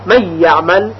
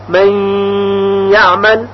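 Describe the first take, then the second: First: من یعمل run together, no pause or ghunna on ی; quick wrong reading of من یعمل. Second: من, pause, then یعمل with a held nasal doubled ی; pause with ghunna. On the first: Teacher shows students the wrong reading, rushed. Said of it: "یعنی نگوییم". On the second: Teacher shows students the correct ghunna, pausing. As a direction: linger on the ی of یعمل. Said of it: "بلکه مکث لازم هست". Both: Shown as a demonstration.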